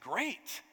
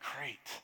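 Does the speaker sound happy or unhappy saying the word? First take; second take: happy; unhappy. First: The word is said in a happy tone. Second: The word is said in an unhappy tone. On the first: The news pleases the speaker. "That means I'm happy" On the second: The news does not please the speaker. "it means something totally different"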